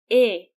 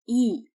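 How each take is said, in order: First: The vowel is a closed 'eh' sound. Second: The vowel is reduced to an 'ee' sound. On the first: The syllable is stressed. The speaker calls it right. "E, e" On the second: The syllable is treated as unstressed. The speaker calls it wrong. "not E, because it's stressed"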